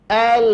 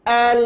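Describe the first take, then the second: No difference in how they are said.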